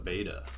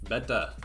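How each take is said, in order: First: It is said in his usual accent. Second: It is said in an Indian accent.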